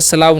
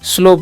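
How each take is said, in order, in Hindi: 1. स्वर 'ow' ध्वनि है, जैसे cow में। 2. स्वर एक सादा 'oh' ध्वनि है। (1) "स्लाव नहीं" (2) "स्लो पढ़ते हैं"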